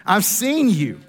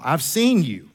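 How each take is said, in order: First: Laughing. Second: Said in the usual way. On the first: Shown as a demonstration.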